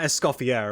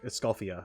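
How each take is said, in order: First: The name ends with an audible R sound. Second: The name ends without any R sound. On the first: The speaker calls it wrong. "it's not Escoffier. Like, you don't pronounce the R" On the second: The speaker calls it right. "It's like Escoffia or something like that"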